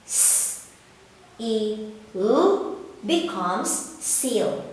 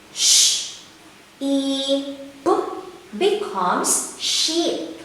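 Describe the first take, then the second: First: S, E, L sounded out, the E light and quiet like the letter name, then "seal" slowly; soft long E. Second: Sh, E, P sounded out one by one, then "sheep" slowly, its E pressed firm; hard long E. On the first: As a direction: blend the letters into "seal", keeping the E gentle. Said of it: "say the long E sound as soft as the name of the". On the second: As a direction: blend the letters into "sheep", leaning on the E. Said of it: "say the long E sound as hard as". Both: Shown as a demonstration.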